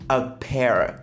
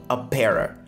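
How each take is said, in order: Both takes have the same delivery.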